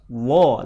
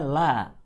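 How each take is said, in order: First: The syllable is thick, with an O vowel. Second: The syllable is thin, with an A vowel. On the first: "Kalau tebal, wo, dekat ke suara O" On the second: "dibaca tipis. Bunyinya la"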